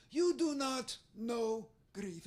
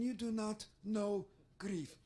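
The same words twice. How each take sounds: First: Put-on slow, stern foreign accent; Israeli accent. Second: Put-on Israeli accent. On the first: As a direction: drag out the verdict with a foreign lilt. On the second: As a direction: drop the pitch and close in an accent. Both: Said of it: "So sometimes I try to mimic her".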